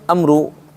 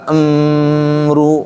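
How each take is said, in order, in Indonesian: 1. Bunyi m dicepat dan dipotong pendek. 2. Bunyi m ditahan terlalu lama. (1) "Enggak juga amru lari" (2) "Enggak amru kelamaan"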